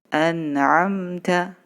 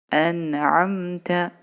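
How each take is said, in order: No difference in how they are said.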